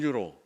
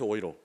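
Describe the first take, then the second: First: The word begins with a 'yu' sound. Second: The word begins with an 'oy' sound. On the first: It is said when speaking Korean. "한국말로 할 때는" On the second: It is said when speaking German. "독일 사람들이 유로를 읽어내는 방식으로"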